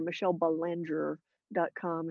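The surname is pronounced with American English sounds. "if you are American"

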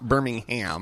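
It is pronounced the American way. It names the city in Alabama. "it's not Birmingham. That's in Alabama"

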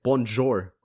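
It is read as spelled, with an English-like accent. The speaker calls it wrong. "Because I was reading it, it's like bonjour"

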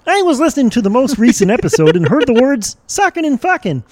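It is read in a Kermit the Frog voice.

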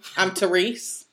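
The introduction sounds forceful and aggressive. "you said that so aggressive"

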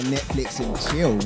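It is said in a suggestive, knowing tone. Implying a romantic hookup.

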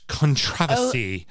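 It is said in a British English accent.

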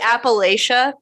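It is said with the northern pronunciation. "I say Appalachia because I'm a northerner"

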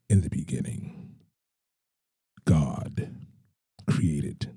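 It is said in a deep voice.

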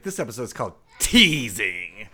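It is said in a sassy, playful character voice.

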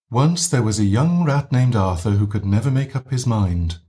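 The voice is gently breathy, with air leaking out.

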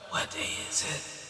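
It is said in a creepy, breathless voice.

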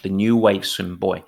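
Buoy is said the English way.

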